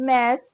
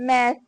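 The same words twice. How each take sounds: Both takes have the same delivery.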